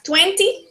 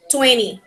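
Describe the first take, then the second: First: British-style TWENTY with the second T sounded; TWENTY, British, both Ts pronounced; British accent. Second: American-style TWENTY with the middle T dropped; TWENTY, American, no second T; American accent. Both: Shown as a demonstration. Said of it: "the British accent and the American accent".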